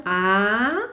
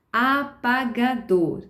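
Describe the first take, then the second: First: Apagador broken into syllables, a-pa-ga-dor; teacher shows how not to dictate: apagador split into syllables; syllabified word. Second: Said in the usual way. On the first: Shown as a demonstration. Dictating to a child, teacher chops apagador into syllables. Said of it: "mas sem silabar a palavra". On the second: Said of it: "a palavra inteira, em alto e bom som".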